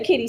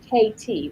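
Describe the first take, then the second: First: The letters are said fast and run together. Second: The letters are said slowly and kept separate. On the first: "like if you say it fast" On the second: "but it's K T"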